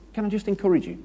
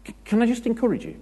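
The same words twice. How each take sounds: First: Much higher, sugary mock encourager. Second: Much higher, fast, sugary parody; mock encourager. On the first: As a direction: lightly parody the overeager church encourager. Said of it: "people that just say". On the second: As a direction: ham up the gushing encourager even more. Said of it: "They start a sentence with that".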